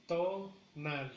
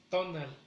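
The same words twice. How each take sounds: First: "Tonal" split as TO, nal; slow teaching model with a gap after TO; syllable by syllable. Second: Said in the usual way. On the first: Shown as a demonstration. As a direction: separate the two beats of "Tonal". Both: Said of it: "en la primera sílaba".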